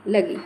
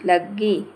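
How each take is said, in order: First: लगी said briefly with a single ग; short sound. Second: लग्गी split as लग-गी, slow with held ई; long, doubled sound. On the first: Teacher giving an example of length, लगी kept short. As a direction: keep लगी short and unstretched. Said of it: "समय की मात्रा कम है". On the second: Teacher showing length, लग्गी slowly drawn out. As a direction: stretch लग्गी over a doubled ग. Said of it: "ऐसे". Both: Shown as a demonstration.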